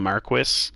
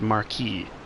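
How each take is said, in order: First: The word is pronounced the English way. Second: The word is pronounced the French way. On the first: The speaker calls it wrong. "the game pronounces this wrong" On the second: The speaker calls it right. "I took French, so I know that Marquis is supposed to be pronounced"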